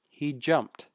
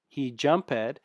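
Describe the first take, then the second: First: The -ed ending joins the verb in one syllable. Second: The -ed ending is said as a separate syllable. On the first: The speaker calls it right. "It's he jumped" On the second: The speaker calls it wrong. "don't say he jump ed"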